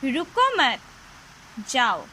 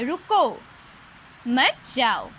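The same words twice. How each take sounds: First: A pause comes right after 'mat'. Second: A pause comes right after 'ruko'. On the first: The listener is told to go. "Mansi ने गगन को school जाने के लिए कहा था" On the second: The listener is told not to go. "मना किया था, इसलिए कहा रुको, मत जाओ"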